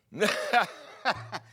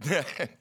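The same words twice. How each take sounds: First: Loud, high burst of mock laughter; imitated uncontrolled laugh. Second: Short burst of mock laughter; imitated small laugh. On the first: Preacher imitating the evangelist unable to speak, big mock laugh. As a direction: cackle loudly as if overtaken by laughter. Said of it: "and he's just laughing". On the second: Preacher imitating the laughing evangelist starting up, small mock laugh. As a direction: let out a brief, put-on chuckle. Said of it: "Started a little bit".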